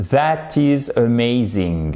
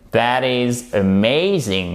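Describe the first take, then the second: First: Careful sounds with French-accented rhythm; slow, evenly stressed French-accented English. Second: THAT IS AMAZING slowly, with a long stressed MAY; drawn-out English rhythm, AMAZING swelling on MAY. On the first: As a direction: pronounce each sound well but keep the French accent. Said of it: "on entend l'accent français". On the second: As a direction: exaggerate a-MAY-zing in THAT IS AMAZING. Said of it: "Vous voyez la différence". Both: Shown as a demonstration.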